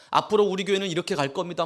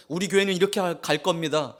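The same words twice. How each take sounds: First: Fast, stress on 앞으로; rushed vision speech. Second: Said in the usual way. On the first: Shown as a demonstration. Preacher mimicking the senior pastor pushing his vision, fast with 앞으로 stressed. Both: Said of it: "막 하는데".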